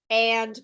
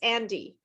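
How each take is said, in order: First: The word ends on a consonant sound. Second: An extra vowel syllable is added at the end.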